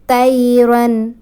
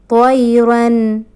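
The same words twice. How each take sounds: First: The first t is light and plain. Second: The first t is heavy and emphatic. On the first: The speaker calls it wrong. "if anybody recite ta, طيرا will be mistake" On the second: The speaker calls it right. "To recite طيرا, طا"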